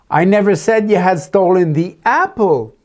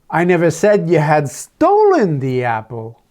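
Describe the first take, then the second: First: The main stress falls on the word apple. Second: The main stress falls on the word stolen. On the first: Something other than the apple was taken. "but I told about the five dollar bill next to it that you took" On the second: The apple was taken, not stolen. "I just said you had taken it, thinking it was yours"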